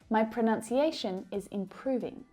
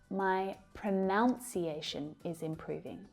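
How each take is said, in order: First: The second syllable has an 'uh' vowel, like 'nun'. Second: The second syllable has an 'ow' vowel, like 'noun'. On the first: The speaker calls it right. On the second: The speaker calls it wrong.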